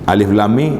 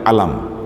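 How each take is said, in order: First: Each letter name is spoken separately in full. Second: The letters are blended into one short word. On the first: The speaker calls it right. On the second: The speaker calls it wrong.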